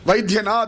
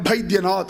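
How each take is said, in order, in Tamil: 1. இந்த வார்த்தை v ஒலியில் ஆரம்பிக்குது. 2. இந்த வார்த்தை b ஒலியில் ஆரம்பிக்குது.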